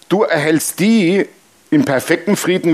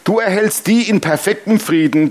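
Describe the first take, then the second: First: It is read very slowly. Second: It is read at a normal pace.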